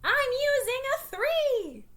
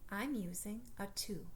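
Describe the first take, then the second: First: It is said in a loud shout. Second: It is said at normal speaking volume.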